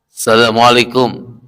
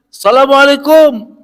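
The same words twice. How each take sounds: First: It is said at a plain, quiet level. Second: It is said a little louder.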